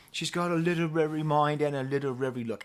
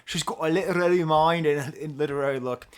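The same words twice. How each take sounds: First: Put-on British accent for a catchy lyric. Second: Loud, hammed-up Scottish accent. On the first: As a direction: recite the hook in an amateur British accent. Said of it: "I'm doing with a British accent, not with an Irish accent". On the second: Shown as a demonstration. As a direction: belt out the line in a mock Scottish accent. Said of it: "I'll do it with a Scottish accent".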